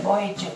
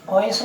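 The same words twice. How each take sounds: First: Soft "बॉयज" with a j ending; final J sound. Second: Said in the usual way. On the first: Shown as a demonstration. Teacher correcting the S ending, final J sound. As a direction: say "बॉयज" as boy-j, not boys with an s. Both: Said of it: "बॉयज नहीं".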